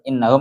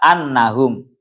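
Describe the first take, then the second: First: The first vowel is an 'i' sound. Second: The first vowel is an 'a' sound. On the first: It starts a new independent clause. "bikasril hamzah" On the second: It is the second object of the verb. "Wa bi fathiha"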